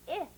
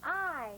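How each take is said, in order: First: A brief "ih" as in "sit"; short I. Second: I said as "eye"; long I. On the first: Teacher answering her own question, short ih. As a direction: clip it to "ih", no consonant. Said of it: "what the short sound is". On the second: Teacher giving pupils the long sound, long I. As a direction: hold I like its letter name. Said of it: "the long sound is". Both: Shown as a demonstration.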